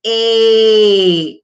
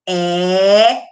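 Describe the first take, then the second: First: The vowel is said closed, with the mouth narrower. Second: The vowel is said open, with the mouth wider.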